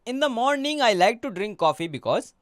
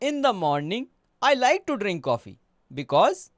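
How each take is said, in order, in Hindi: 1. वाक्य बिना किसी पॉज़ के चलता रहता है। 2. छोटे पॉज़ वाक्य को तोड़ देते हैं।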